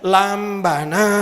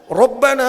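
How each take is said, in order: First: The word begins with an L sound. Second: The word begins with a rolled R sound. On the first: The speaker calls it wrong. "dia bilang lambana" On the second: The speaker calls it right. "mestinya ro"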